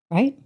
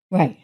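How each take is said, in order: First: "Right?" asked with a rising tune; questioning rise. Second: "Right." answered with a falling tune; answering fall. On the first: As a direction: ask "Right?" as a real question, voice going up. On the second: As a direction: settle it with a firm, falling "Right.". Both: Shown as a demonstration.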